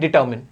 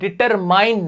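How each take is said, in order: First: The last syllable is short, like 'min'. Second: The last syllable is long, like 'mine'. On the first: The speaker calls it right. "ये होता है डिटरमिन" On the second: The speaker calls it wrong. "इस word को डिटरमाइन नहीं कहते"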